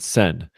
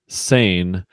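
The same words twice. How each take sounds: First: It is said with a French pronunciation. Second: It is said with an American pronunciation. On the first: "French pronunciation" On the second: "American pronunciation"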